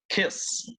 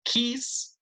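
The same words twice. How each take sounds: First: Kiss with a short relaxed i, breathed without voice; short lax i, whispered. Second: Kiss said as keess, long tight ee and pitched high; tense ee vowel. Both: Shown as a demonstration. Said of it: "listen to me".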